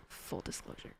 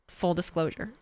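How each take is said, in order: First: Full disclosure, whispered with no voice at all; whispered aside. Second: Said in the usual way. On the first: Shown as a demonstration.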